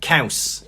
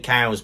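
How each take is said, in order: First: Caws like cows with a hard s ending; harder pronunciation. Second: Said in the usual way. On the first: Shown as a demonstration. Teaching Welsh for cheese, Caws said harder. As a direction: say Caws as a crisp "kowss". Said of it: "gotta be a bit harder with it". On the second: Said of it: "which is like saying cows".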